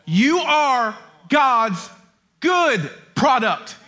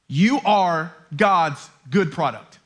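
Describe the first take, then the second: First: YOU, GOD'S and GOOD drawn out very slowly; emphatic repetition. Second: Low, slow and deliberate; earnest declaration. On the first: Preacher insisting "You are God's good product", every word slowly stressed. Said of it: "You gotta hear me say that". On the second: Preacher asking listeners to hear him, low earnest declaration. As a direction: let each word land gently but firmly. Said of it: "please hear me say this". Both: Real, not acted.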